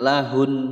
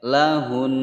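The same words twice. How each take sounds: First: The final n is cut off short. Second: The final n is held for two beats. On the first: The speaker calls it wrong. "jangan lahun, nah, itu salah" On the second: The speaker calls it right. "ditahan dulu"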